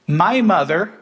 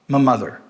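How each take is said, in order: First: The word 'my' keeps its full vowel. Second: The word 'my' is reduced to a schwa.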